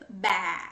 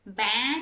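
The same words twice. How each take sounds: First: "बै" held on an open ae, with no n; open vowel, no n. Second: "बै" with an n sound added at the end; nasal ending, wrong. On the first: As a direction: leave "बै" open, without nasal closure. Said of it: "न नहीं लगाना है, but सिर्फ". ("बै" बिना न के, खुला ऐ) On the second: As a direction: close "बै" into a nasal n. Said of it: "न नहीं लगाना है". ("बै" के अंत में न की आवाज़) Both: Shown as a demonstration.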